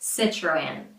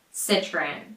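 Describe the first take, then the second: First: It is said with American I and R sounds. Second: The same.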